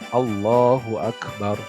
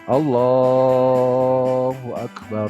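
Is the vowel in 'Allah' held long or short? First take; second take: short; long. First: The vowel in 'Allah' is held only briefly. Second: The vowel in 'Allah' is stretched out long. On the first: The speaker calls it right. "lafadz Allah itu hanya dua harokat" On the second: The speaker calls it wrong. "dipanjangkeun Allahna"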